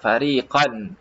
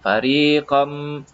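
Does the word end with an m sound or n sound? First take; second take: n sound; m sound. First: The word ends with an n sound. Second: The word ends with an m sound. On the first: "fariqan ada bunyi nun" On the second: "nun tu ditiadakan terus masuk kepada mim"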